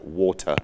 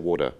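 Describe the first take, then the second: First: It is pronounced crisply, in a precise British way. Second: It is pronounced loosely, with an American-sounding accent. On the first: "I won't pronounce it too pr- exactly" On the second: "that's sort of the American coming through"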